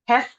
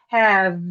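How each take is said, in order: First: The final consonant is voiceless, like an f. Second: The final consonant is voiced, like a v. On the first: The speaker calls it wrong. "which is a voiceless consonant" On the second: The speaker calls it right. "it's pronounced as have, which is a voice consonant"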